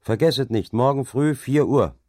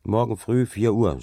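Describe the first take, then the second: First: Louder, higher call; called reminder. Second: Said in the usual way. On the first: A narrator's reading. Dike reeve calls a reminder after the departing overseers, louder. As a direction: call it after them as they leave.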